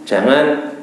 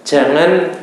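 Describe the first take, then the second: The two takes are said the same way.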